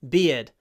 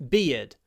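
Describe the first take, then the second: Both takes have the same delivery.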